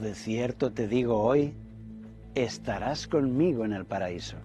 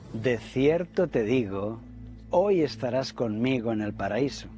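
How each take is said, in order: First: There is a pause after the word hoy. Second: There is a pause before the word hoy.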